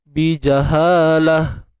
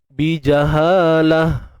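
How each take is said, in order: No difference in how they are said.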